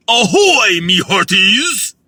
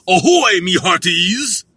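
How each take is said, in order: First: Loud pirate "Ahoy, me hearties!", slow at the end; pirate hail. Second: Pirate hail. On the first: Retrying the pirate greeting, louder and slower. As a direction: hail the crew like a pirate captain. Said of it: "that was a little better". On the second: Practicing a pirate greeting, loud and hammed-up. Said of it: "I gotta work on that". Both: Pretend.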